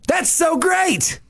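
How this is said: It sounds genuinely excited.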